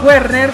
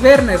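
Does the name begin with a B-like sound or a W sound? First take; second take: W; B-like. First: The name begins with a W sound. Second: The name begins with a B-like sound. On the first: This is the Spanish-style reading of the name. The speaker calls it wrong. "yo le digo Werner como se pronunciaría, no sé, en español" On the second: This is the original German reading of the name. The speaker calls it right. "en alemán es Werner, como si tuviera una B, no una W"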